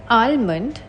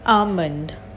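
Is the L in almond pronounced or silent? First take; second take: pronounced; silent. First: The L sound is pronounced. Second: The L sound is silent. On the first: The speaker calls it wrong. "It's not almond" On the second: The speaker calls it right. "words with the silent L in them"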